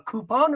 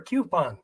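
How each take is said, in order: First: "coupon" as KOO-pon. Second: "coupon" as KYOO-pon. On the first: Asking viewers which they say, "coupon" as KOO-pon. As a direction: say "coupon" with a plain oo, no y-glide. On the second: Asking viewers which they say, "coupon" as KYOO-pon. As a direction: say "coupon" with a y-glide after the c. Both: Shown as a demonstration. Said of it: "coupon or coupon".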